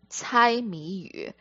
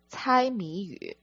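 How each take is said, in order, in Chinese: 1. 这个短语的发音和声调是普通话的。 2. 这个短语的发音和声调是普通话的。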